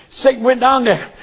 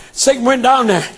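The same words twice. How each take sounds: The two takes are said the same way.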